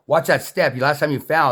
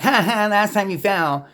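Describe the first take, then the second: First: Said in the usual way. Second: High, slow sneering "Ha ha, last time you fell"; mocking taunt. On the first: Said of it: "and I said". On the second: Warning a friend about a step, mocking not caring. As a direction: gloat over their fall with a nasty laugh. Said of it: "it wasn't because I'm like".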